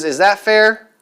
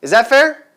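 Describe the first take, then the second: First: "Is that fair?" with the voice going down on "fair"; falling tune on fair. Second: "Is that fair?" ending high and rising on "fair"; rising tune on fair. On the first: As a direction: state it flat, let "fair" drop. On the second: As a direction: ask it up, lift "fair" at the end. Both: Shown as a demonstration. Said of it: "Your voice goes down versus going up".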